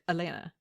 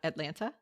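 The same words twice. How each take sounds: First: The second T sound is dropped. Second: The second T sound is clearly pronounced. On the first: "They'll say like"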